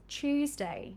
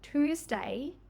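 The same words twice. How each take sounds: First: It begins with a blended ch sound. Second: It begins with a separate t and y sound.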